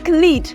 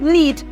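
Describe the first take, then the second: First: A k sound is heard before the n. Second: No k sound is heard before the n. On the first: The speaker calls it wrong. "you're not saying" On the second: The speaker calls it right. "Just lead. ... my K is what? Absent and not pronounced"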